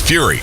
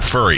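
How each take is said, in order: First: The first vowel sounds like the word 'few'. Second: The first vowel sounds like the word 'fur'. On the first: The speaker calls it right. "think of Furious" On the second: The speaker calls it wrong. "It's not Furry Adventures"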